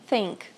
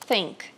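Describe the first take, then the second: The two takes are said the same way.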